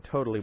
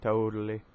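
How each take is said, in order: First: "totally" with a crisp T in the middle; crisp T pronunciation. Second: "Totally" with the middle T softened to a D; flapped T pronunciation. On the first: Reader telling a mind gone blank, crisp T in "totally". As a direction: say "totally" with the second T fully sounded. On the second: Reader redoing a word in another accent, flapped T in "Totally". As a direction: say "Totally" as "toe-duh-lee". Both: Real, not acted. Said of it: "That was the wrong accent".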